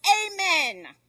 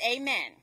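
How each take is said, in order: First: Higher, louder cry to stop; raised, urgent storyteller's yell. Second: Said in the usual way. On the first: A narrator's reading. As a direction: yell it to halt the horse. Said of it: "and the man yells".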